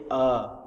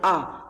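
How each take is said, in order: First: The sound is made deep in the throat. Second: The sound is made in the front of the mouth. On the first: The speaker calls it right. "tapi eh dalam ya" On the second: The speaker calls it wrong. "bukannya dari mulut, bukannya ah"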